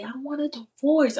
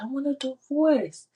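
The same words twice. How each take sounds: First: High, sharp outcry; mock yell. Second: High, sharp outcry again; yelled. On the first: Wife telling God her old marriage is over, a high yell. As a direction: blurt it out like a yell. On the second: Retold or imitated. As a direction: fling it out as a shout. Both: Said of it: "I literally just yelled it like that".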